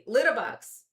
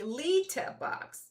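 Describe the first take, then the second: First: The first vowel is relaxed and reduced. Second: The first vowel is pronounced carefully and clearly. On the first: "when you say it the American way" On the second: "if you're gonna try it now again"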